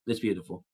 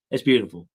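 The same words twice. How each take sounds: First: Much softer, almost to himself; softly moved. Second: Said in the usual way. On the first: Real, not acted. Streamer moved by his chat, much softer and touched. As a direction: let it fall away, touched. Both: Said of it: "Y'all get me all emotional".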